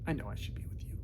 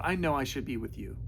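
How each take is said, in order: First: Unvoiced, softer repeat; whisper. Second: Said in the usual way. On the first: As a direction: hush it like a private confession.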